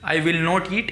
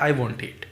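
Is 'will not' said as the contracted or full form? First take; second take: full; contracted. First: The full form 'will not' is said. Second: The contracted form 'won't' is said. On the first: "विल नॉट बोलोगे तो भी चलेगा" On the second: "वॉन्ट बोलोगे तो भी चलेगा"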